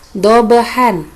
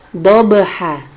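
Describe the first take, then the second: First: The word ends with an n sound. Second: The word ends on a vowel, no n. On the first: This is the written form with tanwin. "terdapat kalimat dobahan" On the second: This is how it is read when stopping at the verse end. "maka membacanya menjadi dobaha"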